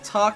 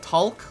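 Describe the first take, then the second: First: The L in the word is silent. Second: The L in the word is strongly heard. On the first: This is how most people say it. "no one pronounces the L in talk" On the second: This is the speaker's own unusual way of saying it. "like a lot of L"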